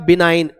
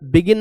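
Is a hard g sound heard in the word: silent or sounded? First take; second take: silent; sounded. First: The g is silent, said bi-nine. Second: A hard g is sounded, said bi-gin. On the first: The speaker calls it right. "बिनाइन पढ़ेंगे इसे" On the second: The speaker calls it wrong. "बिगिन नहीं"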